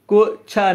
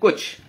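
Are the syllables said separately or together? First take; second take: separately; together. First: The two syllables are said apart, separately. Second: The two syllables are joined in one go. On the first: The speaker calls it wrong. "हम को छा नहीं कहते" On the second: The speaker calls it right. "एक साथ मिलाकर कह रहे हैं"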